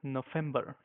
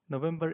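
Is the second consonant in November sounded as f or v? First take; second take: f; v. First: The second consonant is an f sound. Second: The second consonant is a v sound.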